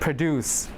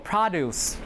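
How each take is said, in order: First: The stress is on the second syllable. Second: The stress is on the first syllable. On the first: It means to make something. "when it's a verb... So the stress will be deuce" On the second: It names vegetables and farm products. "The noun will have the stress on the first syllable"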